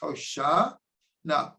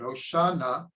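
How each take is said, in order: First: It is split into two parts with a break. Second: It is said as one unbroken word. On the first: It is two words meaning please save. "it's really two words" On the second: It is treated as a single word. "We say it as if it's one word"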